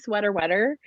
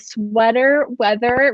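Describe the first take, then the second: First: The second word has a plain 't' sound. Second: The second word has a 'th' sound. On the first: The speaker calls it wrong. "I always wanna say sweater wetter" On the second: The speaker calls it right. "I said it"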